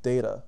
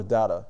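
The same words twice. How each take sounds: First: "data" with first vowel as in day; first "data" pronounced day-ta. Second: "data" with first vowel as in father; second "data" pronounced dah-ta. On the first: Offers two English pronunciations. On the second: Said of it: "whichever English you pre". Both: Shown as a demonstration.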